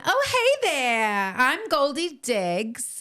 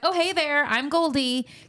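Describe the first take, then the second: First: It is said in a put-on character accent. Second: It is said in a plain, ordinary voice.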